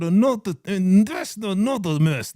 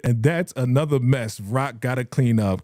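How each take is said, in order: First: Kanan. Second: Said in the usual way. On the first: Shown as a demonstration. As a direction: read it through teeth that will not move. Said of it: "I can't do it like this". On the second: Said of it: "I can't read it like".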